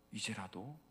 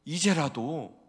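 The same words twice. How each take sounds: First: 이제라도 much softer, rising; 이제라도 almost whispered; soft plea. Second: 이제라도 loud, falling; 이제라도 said strong; firm call. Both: Acted. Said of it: "repeated plea".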